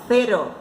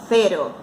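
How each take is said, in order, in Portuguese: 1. É dita com sotaque do espanhol da Espanha. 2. É dita com sotaque do espanhol da Espanha.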